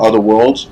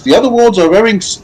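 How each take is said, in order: First: Said in the usual way. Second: Lightly voiced cheerful guide, pitched up; a hint of a chirpy game guide; balloon guide voice.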